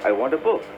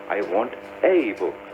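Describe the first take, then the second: First: The stress falls on the word book. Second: The stress falls on the word a. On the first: The speaker simply wants a book. "So stress would be more on book than on a book" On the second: The speaker wants only one book. "I want to stress on the fact that I want only one book"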